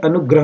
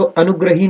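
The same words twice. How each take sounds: First: अनुग्रह ending "-grah"; correct ending without ee. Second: अनुग्रही ending "-hee"; faulty a-nu-gra-hee; wrong final ee. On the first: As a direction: say अनुग्रह, no ee after h. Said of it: "अनुग्रह होता है". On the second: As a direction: say अनुग्रही with a long ee at the end. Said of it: "अनुग्रही नहीं होता". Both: Shown as a demonstration.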